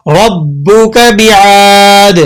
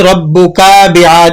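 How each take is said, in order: First: ربک with a short kaf, very slow; short kaf, correct. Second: ربک with the kaf vowel drawn out into an alif; stretched kaf, wrong. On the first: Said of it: "کاف کو کھینچیں گے نہیں". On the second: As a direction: demo the mistake, lengthening the ک of ربک. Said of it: "اس طرح سے پڑھ دیتے ہیں". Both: Shown as a demonstration.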